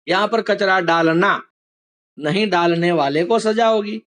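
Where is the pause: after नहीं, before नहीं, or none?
before. There is a pause right before नहीं. "एक वाक्य में अल्प विराम नहीं के पहले था"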